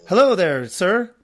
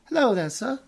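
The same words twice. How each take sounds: First: It is said in a plain, non-British accent. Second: It is said in a put-on British accent. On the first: "she wouldn't say it like that" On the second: "She's British. / I just go into British"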